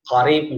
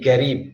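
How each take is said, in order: First: It starts with a deep Q sound. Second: It starts with a G sound, Gulf style.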